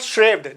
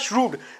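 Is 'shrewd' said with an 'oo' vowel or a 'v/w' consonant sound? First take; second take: consonant sound; oo vowel. First: The w is sounded as a consonant, 'shrevd'. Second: The ew is sounded as a long 'oo' vowel. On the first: The speaker calls it wrong. "इसको एक consonant मान लिया और वह sound निकाल दी" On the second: The speaker calls it right. "जबकि होगा श्रूड"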